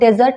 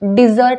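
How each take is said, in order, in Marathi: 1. पहिला अक्षर 'de' सारखा म्हटला जातो. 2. पहिला अक्षर 'di' सारखा म्हटला जातो. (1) "तो डेझर्ट नसून" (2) "डी बोलायचं आहे, ड नाही बोलायचं आहे"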